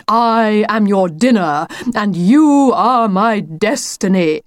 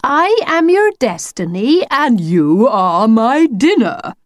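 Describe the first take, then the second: First: Slow, drawn-out mock menace; theatrical declaiming. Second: High start, slow drawn-out ending; theatrical chorus line. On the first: The wolf shows his planned pounce line, grandly declaimed. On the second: Acted. Lucy and the wolf recite his line together, grandly declaimed. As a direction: declaim it as a grand mock threat. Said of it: "they said together".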